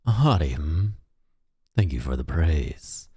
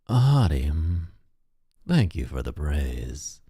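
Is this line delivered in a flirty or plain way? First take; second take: plain; flirty. First: The line is delivered with little flirtiness. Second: The line is delivered with much more flirtiness.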